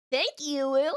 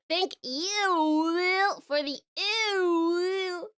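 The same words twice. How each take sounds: First: Said in the usual way. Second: Slow disgusted drawl; stretched-out mock disgust; drawn-out ew.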